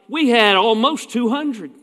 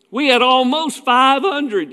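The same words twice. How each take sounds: First: Mock bragging preacher, pitched a bit higher; mock boasting. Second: Higher, slow, drawn-out mock brag; escalating mock boast. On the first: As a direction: imitate a preacher proudly quoting attendance. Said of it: "we don't ever sell it short". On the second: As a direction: top the last boast, stretching it out. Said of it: "You know, we keep going".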